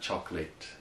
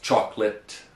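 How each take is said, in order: First: Its last part sounds like the word 'late'. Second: It has two syllables and ends in 'lit'. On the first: The speaker calls it wrong. "not chocolate" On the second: The speaker calls it right. "it's pronounced chocolate"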